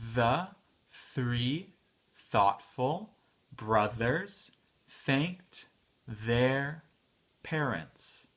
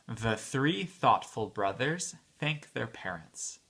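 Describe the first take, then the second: First: The sentence is spoken at a medium pace. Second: The sentence is spoken at a fast pace. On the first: "un peu plus vite" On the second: "à la vitesse euh, vite"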